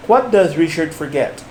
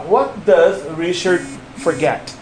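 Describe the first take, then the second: First: Said in the usual way. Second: Slow and word by word, with space after "does" and "Richard"; slow, careful model. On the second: Shown as a demonstration. Teacher showing a learner not to rush, slow and careful. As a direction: take your time over each word, pronounced precisely. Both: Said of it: "It doesn't matter if you say".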